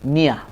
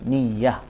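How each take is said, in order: First: The y sound is single and short. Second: The y sound is doubled and held longer. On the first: "dibaca dengan tidak ada tasydid, takhfif" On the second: "Dekat ya tu dibaca niyah, ada tasydid"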